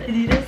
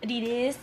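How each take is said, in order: First: It is said the Italian way. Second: It is said the American way.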